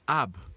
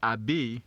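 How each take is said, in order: First: The syllable ends on a bare B sound. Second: A vowel sound follows the B at the end. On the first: The speaker calls it right. "you say ab" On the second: The speaker calls it wrong. "you will not say abe"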